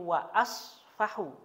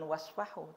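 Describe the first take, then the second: First: Wa is followed by a separate vowel. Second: Wa runs straight into the next syllable. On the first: The speaker says they forgive. The speaker calls it right. "tapi wa asfahu" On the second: It is a command to forgive. The speaker calls it wrong. "seharusnya ini bukan wasfahu"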